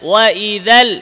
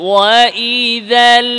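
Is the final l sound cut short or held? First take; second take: cut short; held. First: The final l sound is cut off abruptly. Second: The final l sound is held slightly longer. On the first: The speaker calls it wrong. "এভাবে এভাবে বলা যাবে না" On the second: The speaker calls it right. "আওয়াজ সামান্য জারি রেখে বলতে হবে"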